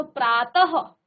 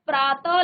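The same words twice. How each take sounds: First: प्रातः slowed, ending in a short breath of ह; visarga as half ह. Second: Said in the usual way. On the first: Shown as a demonstration. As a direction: let प्रातः end on a light half ह. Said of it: "ह का उच्चारण आ रहा है". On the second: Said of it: "जैसे आप प्रातः लिख रहे हैं".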